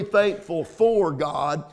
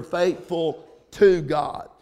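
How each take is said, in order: First: "faithful FOR God" with weight on FOR; stress on FOR. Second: "faithful TO God" with weight on TO; stress on TO. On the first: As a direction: set FOR against "to" by stressing it. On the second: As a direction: lean on TO to correct "for". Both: Shown as a demonstration. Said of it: "said that with emphasis".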